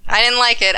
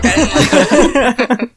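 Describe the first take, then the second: First: Said in the usual way. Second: Didn't drawn out slow and loud through a laugh; slow laughing stress on didn't. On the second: Shown as a demonstration. Guest takes it back, stressing didn't slowly through laughter. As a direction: lean hard on didn't, slowly, half laughing. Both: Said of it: "I take it back".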